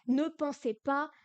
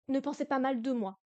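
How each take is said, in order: First: Slowly, leaning on ne; slow careful phrasing. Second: Said in the usual way. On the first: Shown as a demonstration. Teacher to students, slow stressed ne. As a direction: spell out Ne pensez pas slowly, ne pushed up. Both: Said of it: "teacher models French translation".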